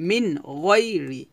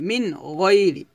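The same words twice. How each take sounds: The two takes are said the same way.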